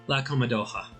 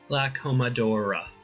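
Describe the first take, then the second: First: The R is said with a French accent. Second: The R is said in a plain English way. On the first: The speaker calls it right. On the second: The speaker calls it wrong.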